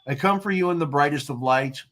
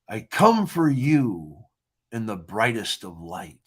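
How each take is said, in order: First: It is read flatly, without any feeling. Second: It is read with strong emotional feeling. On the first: The reader does not know the intended emotion. "they're going to read it like I did the first time. They're just going to read it. And there's no feeling to that" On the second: The intended emotion comes through. "I read it like this in my head"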